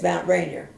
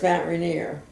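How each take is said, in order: First: Rainier is said the Maryland local way. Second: Rainier is said the common, widely used way. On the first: This is how people in Maryland say it. "but there it's, it's Mount Rainier" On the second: This is how people here say it. "it's here is Mount Rainier"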